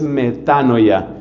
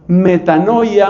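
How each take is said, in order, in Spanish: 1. Se dice al estilo original del griego. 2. Se dice al estilo común del español. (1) "la pronunciación más correcta en el griego es metanoia" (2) "lo que la Biblia llama metanoia"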